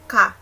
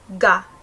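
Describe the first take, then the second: First: The first consonant is a full K sound. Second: The first consonant is a plain voiced G. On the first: "Hindi rin siya ka" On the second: "hindi siya ga"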